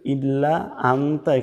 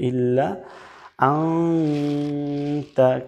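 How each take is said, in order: First: The n sound is short and plain. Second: The n is held with a nasal hum. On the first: The speaker calls it wrong. "এখানে বলা যাবে না" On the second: The speaker calls it right. "বলতে হবে ইল্লা আনতা"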